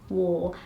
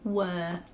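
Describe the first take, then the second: First: The word rhymes with 'four'. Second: The word rhymes with 'fur'. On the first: The speaker calls it right. "And then I say war" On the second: The speaker calls it wrong. "I'll say were"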